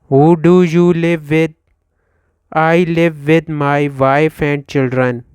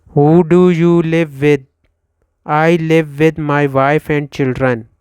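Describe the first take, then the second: No difference in how they are said.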